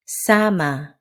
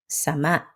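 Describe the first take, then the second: First: "Sama" with long, stressed SA; stress on first syllable. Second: "Sama" short, with clipped final MA; quick SA, then stop short on MA in "Sama"; stress on last syllable. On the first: Teacher drilling learners to repeat, "Sama" stressed on first syllable. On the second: Teacher drilling learners to repeat, "Sama" with short, stressed last syllable. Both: Shown as a demonstration. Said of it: "Stress and rhythm".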